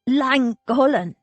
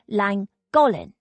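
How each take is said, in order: First: It starts with a throaty, throat-clearing sound. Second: It starts with a plain, smooth sound. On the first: This is how Welsh speakers say it. "More clearing of the throat. That's how the Welshies say it anyway" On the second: This is how English speakers say it. "The English say it as Llangollen"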